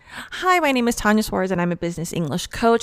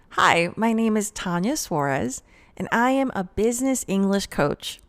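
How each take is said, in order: First: It runs on quickly with no pause before the title. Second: It is slower, with a pause before the title. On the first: The speaker calls it wrong. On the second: The speaker calls it right.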